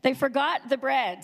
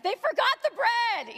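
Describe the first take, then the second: First: Said in the usual way. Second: High, drawn-out wail of mock horror; dramatic reading. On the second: Shown as a demonstration. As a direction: read it as a huge tragedy, pitch soaring. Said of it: "So I would read it like".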